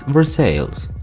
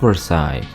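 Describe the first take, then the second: First: It uses the local Missouri pronunciation. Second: It uses the French-palace pronunciation. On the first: The speaker calls it right. "it's Versailles" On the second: The speaker calls it wrong. "not Versailles, like the French palace"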